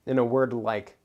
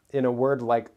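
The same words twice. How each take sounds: The two takes are said the same way.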